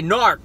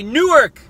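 First: The word is clipped, sounding almost like 'narc'. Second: Every syllable of the word is clearly enunciated. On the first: This is how local people say it. "That's how the Newark people say Newark. They say Newark. Almost like a narc" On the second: This is how people from the south of the state say it. "we say Newark. Because we pronounce our syllables. We enunciate"

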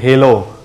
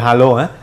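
First: It is pronounced the English way. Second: It is pronounced the Malay way. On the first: "but English will be halo" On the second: "Malay will be halo"

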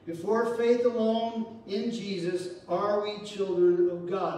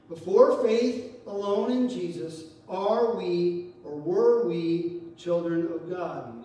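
First: It is said at a normal pace. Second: It is said slowly and deliberately.

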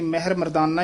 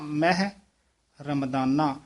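First: The words run together with no pause. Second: A short pause comes after the first word. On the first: The speaker calls it wrong. "ਉਹ ਤਾਂ ਬਹੁਤ ਗਲਤ ਹੈ" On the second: The speaker calls it right. "ਮਹਿ ਪਾਤੇ ਥੋੜਾ ਜਿਹਾ ਠਹਿਰਾ ਦੇ ਕੇ ਬੋਲਣਾ"

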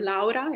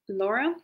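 First: The name is said with an Italian accent. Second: The name is said with an English accent.

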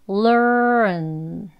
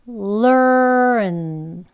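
The two takes are said the same way.

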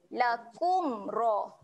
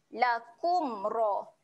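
No difference in how they are said.

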